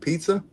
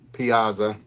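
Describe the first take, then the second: First: The name is said like pizza, two syllables. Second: The name is said with three syllables, pee-ah-za. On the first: The speaker calls it wrong. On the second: The speaker calls it right.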